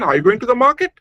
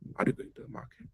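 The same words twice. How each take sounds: First: The voice rises at the end. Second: The voice falls at the end. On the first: The speaker calls it right. "with the example of a rising intonation" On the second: The speaker calls it wrong. "with the falling intonation, it will become very funny"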